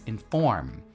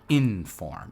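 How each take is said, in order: First: The stress is on the second syllable. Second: The stress is on the first syllable. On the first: The speaker calls it right. "you put the stress on the second syllable" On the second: The speaker calls it wrong. "not inform"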